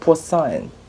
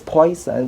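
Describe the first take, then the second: First: It is said French-style, like pwah-son. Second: It sounds like the English word poison. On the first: The speaker calls it right. "but it's actually poisson" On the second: The speaker calls it wrong. "it looks like the spelling could be pronounced as poison"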